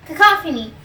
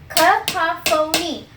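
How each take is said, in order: First: Said in the usual way. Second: Slow demo. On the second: Shown as a demonstration. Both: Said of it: "to the next word".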